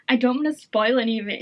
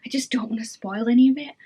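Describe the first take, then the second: First: Said in the usual way. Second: Secretive whisper, no voice at all. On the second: Real, not acted. Whispering to viewers she won't spoil the book. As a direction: whisper it so nobody hears the spoiler. Whispered, then repeated aloud.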